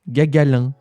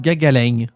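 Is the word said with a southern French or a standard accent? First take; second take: standard; southern. First: It is said in a standard French accent. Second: It is said in a southern French accent.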